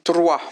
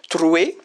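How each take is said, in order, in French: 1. Le mot se termine par le son 'wa'. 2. Le mot se termine par le son 'we'.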